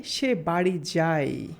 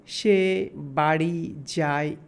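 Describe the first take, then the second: First: "সে বাড়ি যায়" said slowly as one phrase; slow teaching example read as one phrase; slow whole sentence. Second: Pointing out each word one at a time. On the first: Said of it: "যদি আমরা এই কথাটুকু বলি". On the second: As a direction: split "সে" "বাড়ি" "যায়" into separate stressed words. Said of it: "খেয়াল করুন". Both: Shown as a demonstration.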